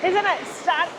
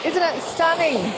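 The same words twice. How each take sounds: First: Losing her voice; hoarse, voice giving out. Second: Hoarse, strained voice. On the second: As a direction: push through a lost voice. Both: Real, not acted. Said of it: "sorry, I got no voice today".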